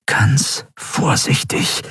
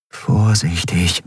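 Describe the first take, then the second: First: Very slow, whispered self-warning; extra-careful caution. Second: Slow, careful warning to oneself; self-admonishing caution. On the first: Andriel easing power into the weapon, whispered caution. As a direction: whisper it, word by word. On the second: Andriel warning herself over the weapon, slow caution. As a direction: draw the word out cautiously. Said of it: "mahnte sie sich". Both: A narrator's reading.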